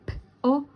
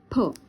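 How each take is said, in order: First: The two sounds are said apart with a pause. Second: The two sounds are blended into one syllable. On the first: "unimos los sonidos para formar palabras" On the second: "unimos los sonidos para formar palabras"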